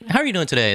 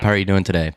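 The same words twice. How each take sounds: First: It is said in a raised, high-pitched voice. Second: It is said in a relaxed, lower natural voice. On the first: It is a put-on voice for customers. The speaker calls it wrong. "My voice goes like twelve semitones up" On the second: It is how the speaker really talks. The speaker calls it right. "I don't talk like that"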